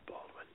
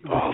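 First: It is whispered as if angry. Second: It is said with reverence.

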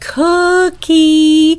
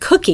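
First: The word is stretched out and exaggerated. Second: The word is said at normal length. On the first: "We might even elongate them so that we're saying cookie" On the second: "instead of cookie"

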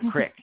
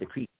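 First: It is said in a Philadelphia accent. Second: It is said in a neutral American accent. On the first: "in Philly, we used to go, ... go down to the creek" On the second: "instead of the creek"

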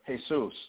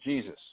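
First: The name is pronounced the Spanish way. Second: The name is pronounced the English way. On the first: "if I'm speaking Spanish" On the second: "the name Jesus"

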